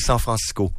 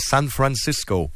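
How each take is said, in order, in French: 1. Le nom se prononce à la française. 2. Le nom se prononce à l'espagnole. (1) "on dit San Francisco" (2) "On ne dit pas San Francisco"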